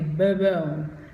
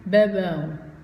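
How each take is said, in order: Both takes have the same delivery.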